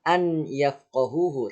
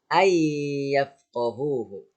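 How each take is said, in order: First: The n sound is pronounced before the y. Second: The n disappears into a doubled y sound. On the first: The speaker calls it wrong. "bukan an yafqahuhu" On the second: The speaker calls it right. "tapi ay yafqahuhu"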